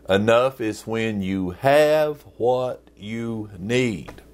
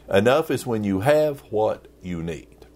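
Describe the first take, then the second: First: It is said really slowly. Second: It is said at normal speed.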